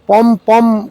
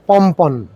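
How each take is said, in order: First: The word is said as pom pom. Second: The word is said as pompon. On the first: The speaker calls it wrong. "আমরা অনেক জায়গাতেই পম পম কথাটা ব্যবহার করতে শুনি" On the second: The speaker calls it right. "সঠিক উচ্চারণ পম্পন"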